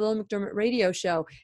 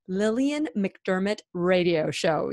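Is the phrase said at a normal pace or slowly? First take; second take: normal; slowly. First: The phrase is said at a normal pace. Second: The phrase is said slowly and deliberately.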